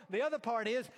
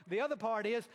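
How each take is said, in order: Both takes have the same delivery.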